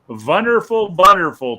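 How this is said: It is said in a German-style accent. "seeing that it's German"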